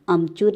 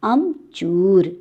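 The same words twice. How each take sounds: First: The vowel after 'ch' is short. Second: The vowel after 'ch' is long. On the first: The speaker calls it wrong. "अमचूर नहीं होता है बच्चों" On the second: The speaker calls it right. "च दीर्घउकार"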